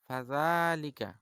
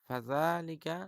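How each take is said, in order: The two takes are said the same way.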